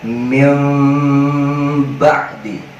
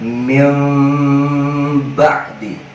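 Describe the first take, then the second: First: The nasal is a softened, partly hidden m. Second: The same.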